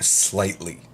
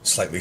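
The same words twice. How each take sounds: First: "slightly" drawn out on a long opening s; stress on slightly. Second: Said in the usual way. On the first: Real, not acted. Correcting himself about online sarcasm, stress drawn out on "slightly". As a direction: stretch out "slightly" for emphasis. Restarts the word to emphasise it.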